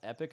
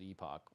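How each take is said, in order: First: The word ends with an 'ick' sound. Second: The word ends with an 'ock' sound. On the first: This is the usual pronunciation. The speaker calls it right. "the word is pronounced epic normally" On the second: This is how the game's makers say it. The speaker calls it wrong. "the devs said on Reddit that they pronounce it epoch, which sucks"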